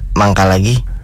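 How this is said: It is said as if with stomachache.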